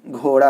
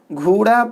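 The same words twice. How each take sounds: First: घोड़ा with a clear long o, ghoda; correct reading. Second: घोड़ा said ghuda with u, high and fast; wrong reading. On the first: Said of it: "घोड़ा जानवर नहीं है, घोड़ा है". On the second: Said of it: "घोड़ा बोलेंगे तो गलत होगा". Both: Shown as a demonstration.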